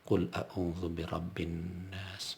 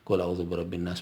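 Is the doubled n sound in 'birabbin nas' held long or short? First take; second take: long; short. First: The doubled n sound is held long. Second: The doubled n sound is clipped short. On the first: The speaker calls it right. "itu tertahan" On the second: The speaker calls it wrong. "nggak boleh begitu"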